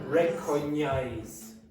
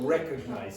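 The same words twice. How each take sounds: First: The g and n merge into one 'ny' sound. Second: The g and n are sounded separately. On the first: The speaker calls it wrong. "It's not recognize" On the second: The speaker calls it right. "So you must separate this"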